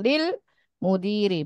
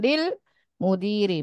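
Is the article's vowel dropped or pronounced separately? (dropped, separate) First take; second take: dropped; dropped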